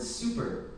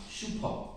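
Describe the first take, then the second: First: Said in the usual way. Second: Generic Korean-accented "shupo" for super. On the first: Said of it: "the word super". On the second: Shown as a demonstration. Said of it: "pronounced with a generic Korean accent".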